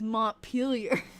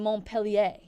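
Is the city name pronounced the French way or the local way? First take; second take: local; French. First: The name is pronounced in the local, non-French way. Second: The name is pronounced in the French way. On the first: The speaker calls it right. "I think that I'm saying it right" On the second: The speaker calls it wrong. "like thinking it's the French pronunciation"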